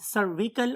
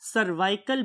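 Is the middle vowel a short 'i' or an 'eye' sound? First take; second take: short i; eye. First: The middle vowel is a short 'i' sound. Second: The middle vowel is an 'eye' sound. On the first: "जिन्हें हम नाम देते हैं सर्विकल" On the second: "बहुत से लोग इसे सर्वाइकल भी बोलते हैं"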